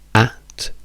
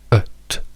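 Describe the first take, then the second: First: The vowel is a full open 'a' sound. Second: The vowel is a short reduced 'uh' sound. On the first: "usiamo la A di drag che richiede una marea di movimento" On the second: "at diventa ut"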